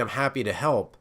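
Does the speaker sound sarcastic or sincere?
sincere. It sounds sincere and willing.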